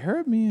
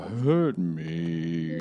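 First: It is said in a high voice. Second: It is said in a low voice.

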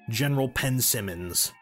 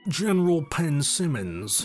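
First: The name is said in a plain, normal voice. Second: The name is said in an exaggerated put-on voice. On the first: The speaker calls it wrong. "How can you say his name just General Pensimmons?" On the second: The speaker calls it right. "You gotta say it in the voice"

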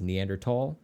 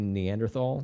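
First: The 'th' is said as a plain 't' sound. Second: The 'th' is said as in 'thin'. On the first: "the proper way to pronounce it is Neanderthal, but that sounds like I've got a speech impediment" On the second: "I'm just going to say Neanderthal. That's how it's written"

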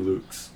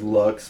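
First: The name ends with a German throaty ch sound. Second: The name ends with an English ks sound. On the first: This is the original German pronunciation. "Luchs would be the more proper German pronunciation" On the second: This is how the family says its name. "our family says Lux"

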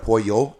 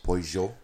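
First: It is said in a non-Argentine Spanish way. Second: It is said in an Argentine Spanish way. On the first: "instead of pollo" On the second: "it's pollo"

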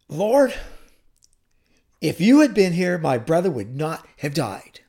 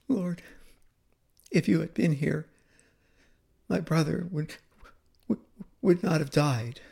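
First: It is said in a stern, reproachful tone. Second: It is said in a sobbing, tearful tone. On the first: She is blaming him for not coming. "I can just see her, folding her arms across her chest and saying" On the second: She is grieving and heartbroken. "But Mary's tone is very different. ... She spoke that through tears, through sobs"

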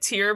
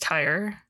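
First: The vowel sounds like the one in 'ear'. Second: The vowel sounds like the one in 'fire'. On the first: The speaker calls it wrong. "I kept pronouncing it tier" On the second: The speaker calls it right. "but I think it's tire"

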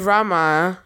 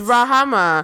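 First: The name has two syllables, with no h sound. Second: The name has three syllables, with an h sound. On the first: The speaker calls it wrong. "I thought it was Rama" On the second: The speaker calls it right. "It's Rahama"

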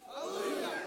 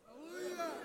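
First: It is said strongly, with more energy. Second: It is said weakly, with little energy.

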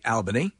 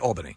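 First: It is said the way outsiders say it. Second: It is said the way New York locals say it. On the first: The speaker is not from New York. "if you're from out of New York, you'll say Albany" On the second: The speaker is from New York. "if you're in New York, you say Albany"

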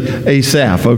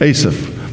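First: The stress is on the second syllable. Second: The stress is on the first syllable. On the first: This is the easier local Southern way of saying it. "it's a whole lot easier for me to say Asaph" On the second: This is probably the name's proper pronunciation. "the man's name is probably Asaph"

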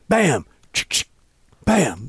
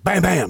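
First: The two bams have a longer gap between them. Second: The two bams come quickly, one after another. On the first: The second shot comes too late to hit the target. The speaker calls it wrong. "That doesn't work because the second bam, that bird's already falling out" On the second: Both shots are fired in time to hit the targets. The speaker calls it right. "you got to go bam, bam"

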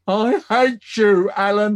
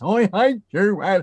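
First: It is said in his normal voice. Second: It is said in a croaky old person's voice.

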